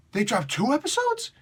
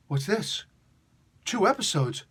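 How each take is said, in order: First: High, amazed disbelief; mounting surprise, pitched up; stunned disbelief. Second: Rising surprised double take; startled, higher question. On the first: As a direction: let the surprise jump up high. Surprise at double release. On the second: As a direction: catch the surprise of two at once. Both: Real, not acted.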